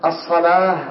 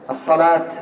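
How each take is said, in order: First: "الصلاة" ending in h, as-salah; final ة as h. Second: "الصلاة" ending in a released t, as-salat; final ة as t. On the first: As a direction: stop on "الصلاة" with a breathed h, not t. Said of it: "بالهاء". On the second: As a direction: stop on "الصلاة" with an audible t. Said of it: "من يقفون بالتاء". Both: Shown as a demonstration.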